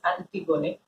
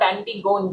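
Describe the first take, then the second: First: The ending does not sound like gone. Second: The ending sounds like the word gone. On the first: The speaker calls it right. "but it's pronounced as Antigone" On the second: The speaker calls it wrong. "not Antigone, G O N E"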